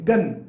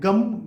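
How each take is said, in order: First: The word ends in an n sound. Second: The word ends in an m sound. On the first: "न का उच्चारण आगे करते हैं" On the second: "कोई लोग गम भी कह लेते हैं"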